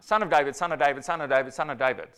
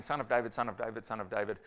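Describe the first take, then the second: First: Mock cry for help, a bit louder. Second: Said in the usual way. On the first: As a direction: call out to Jesus, pleading. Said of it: "crying out". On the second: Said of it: "another guy saying".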